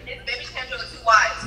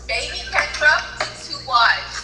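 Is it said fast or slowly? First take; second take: fast; slowly. First: It is said fast. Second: It is said more slowly.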